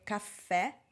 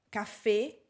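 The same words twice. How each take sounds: First: The final vowel is open, mouth wide. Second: The final vowel is closed, mouth narrower. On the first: The speaker calls it right. "Vedete la mia bocca si apre" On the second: The speaker calls it wrong. "che non si dice"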